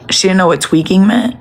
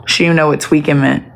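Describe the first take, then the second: First: Rising on "meant" in disbelief; incredulous question. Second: Said in the usual way. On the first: Real, not acted. To the viewers, repeating the news, incredulous rise on "meant".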